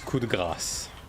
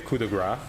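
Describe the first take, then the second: First: The final s sound is clearly pronounced. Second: The final s sound is left off. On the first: The speaker calls it right. "With a s at the end" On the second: The speaker calls it wrong. "English-speaking people tend, tend to say coup de grace, which is incorrect"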